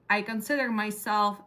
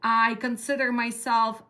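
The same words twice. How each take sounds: The two takes are said the same way.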